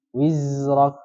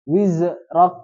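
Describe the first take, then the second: First: Wizrok with the z let flow on, not bounced. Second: Wizrak with the z bounced, a louder mock mistake; wrong bounced z. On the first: Teacher modelling the flowing z for the students. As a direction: let the z in Wizrok run smoothly into the r. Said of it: "Nah, itu, dialirkan". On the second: Teacher showing students the bouncing mistake on Wizrak. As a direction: bounce the z in Wizrak as the error to avoid. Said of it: "Jangan dialirkan. Wiz, eh, jangan, apa namanya, dipantulkan". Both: Shown as a demonstration.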